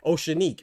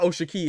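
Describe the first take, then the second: First: The name is said with an n sound. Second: The name is said without an n sound. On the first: The speaker calls it right. "so it's Oceanique" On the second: The speaker calls it wrong. "It's not Oshaki"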